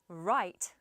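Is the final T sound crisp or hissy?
crisp. The final T is a crisp stop. "So if I said right"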